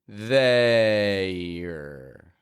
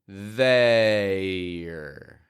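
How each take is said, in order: No difference in how they are said.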